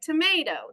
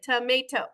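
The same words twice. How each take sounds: First: One syllable is stressed more than the others. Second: All syllables get the same robotic stress.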